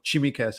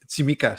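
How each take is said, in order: First: The name begins with a ch sound. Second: The name begins with a ts sound. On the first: The speaker calls it wrong. "He pronounced it with a C H" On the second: The speaker calls it right. "the T S is pronounced at the same time"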